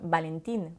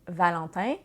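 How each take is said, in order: First: The name begins with a B-like sound. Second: The name begins with a French V sound. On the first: "parce que le V se, se prononce vraiment comme un B" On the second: "si votre nom est euh, Valentin"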